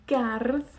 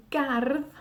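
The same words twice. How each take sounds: The two takes are said the same way.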